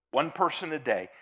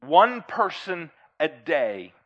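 First: Said in the usual way. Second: One punched loud, slow phrase; stress on ONE. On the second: Shown as a demonstration.

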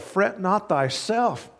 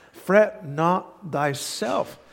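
First: Raised pitch, slow, Fret stressed; emphatic scripture. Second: Each word drawn out, stress on Fret; slow emphatic scripture. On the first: Preacher repeating the verse to the congregation, lifted and emphatic. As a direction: lift it and land it firmly. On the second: Preacher hammering the verse home to the congregation, slow and emphatic. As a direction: lean hard into Fret and stretch it. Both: Acted.

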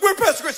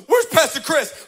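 First: High, loud mocking echo; sassy mock echo. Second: High loud demand; demanding yell. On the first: Assistant mocking the intruder, high sassy echo. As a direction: throw her words right back. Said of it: "she didn't even miss a beat". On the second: Retold or imitated. Stranger storming into the office, loud demanding call. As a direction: burst in and demand him. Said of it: "storms her office and goes".

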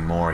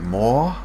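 First: Said in the usual way. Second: "More?" said with a rising Irish lilt; one-word Irish. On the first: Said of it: "instead of saying". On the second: Retold or imitated. Mocking an actor's slip into Irish on "More?". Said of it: "he'd be like".

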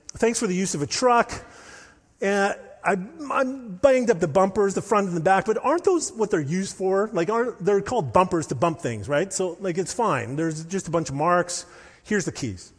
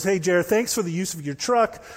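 First: A light, lively mock Scottish accent, pitched higher. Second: Said in the usual way. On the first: Johnny returning the dented truck to Jared, in a mock Scottish accent. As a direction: play Johnny as a breezy Scot shrugging off the dents in a Scottish accent. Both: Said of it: "Think of a, a accent".

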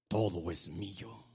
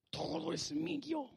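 First: Low, deliberate claim; measured, deep-pitched affirmation; slow, low declaration. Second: Drawn-out high claim; soft-edged high, slow affirmation; high, slow declaration. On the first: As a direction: state it slowly and low, word by word. Preacher demonstrates claiming, first take. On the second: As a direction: lift the voice high and stretch each word. Preacher repeats claim, higher take. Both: Acted.

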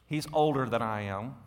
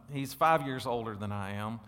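First: Put-on "older" leaned on, rising; stress on older. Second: "five" leaned on, rising; stress on five. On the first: Pastor joking with the church about his older brother, stressing "older". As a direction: lean into "older" with a playful rise. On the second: Pastor teasing about his brother's age, stressing "five". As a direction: punch "five" with a teasing lift. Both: Shown as a demonstration. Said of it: "put a lot of emphasis on older".

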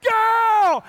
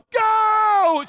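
First: High, stretched-out shout; yelled command. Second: Long, high-pitched yell; yelled command. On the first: Wife yells the signal to run from security, urgent yell. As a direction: holler it as the signal to bolt. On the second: Wife yells at husband to flee security, urgent yell. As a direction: imitate a wife screaming to run. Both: Retold or imitated. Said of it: "She just yelled".

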